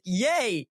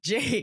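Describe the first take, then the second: First: The name is screamed in a Latin American accent. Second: The name is said plainly in her normal accent.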